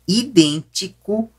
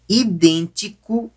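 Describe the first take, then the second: No difference in how they are said.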